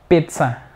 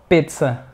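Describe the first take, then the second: No difference in how they are said.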